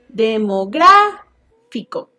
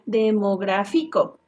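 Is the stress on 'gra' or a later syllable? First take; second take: gra; later syllable. First: The stress falls on the syllable 'gra'. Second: The stress falls on a later syllable. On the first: The speaker calls it right. "En la antepenúltima" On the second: The speaker calls it wrong. "si no llevara, diría"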